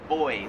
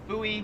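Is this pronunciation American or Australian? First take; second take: Australian; American. First: It is said with an Australian accent. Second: It is said with an American accent. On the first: "they pronounce it boy" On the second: "we pronounce that buoy"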